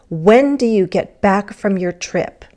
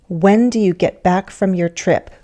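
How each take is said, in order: Both takes have the same delivery.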